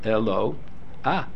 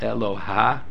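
First: The 'a' vowel comes before the final consonant. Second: The 'a' vowel follows the final consonant. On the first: The speaker calls it right. "You pronounce it eloah" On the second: The speaker calls it wrong. "you don't pronounce it eloha. That's incorrect pronunciation"

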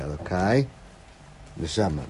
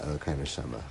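First: There is a pause between the two words. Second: The two words run together without a pause. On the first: God is addressed, then the soul is spoken of. The speaker calls it right. "There has to be a pause" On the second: It sounds like the soul is one's God. The speaker calls it wrong. "it's not the way I'm saying it"

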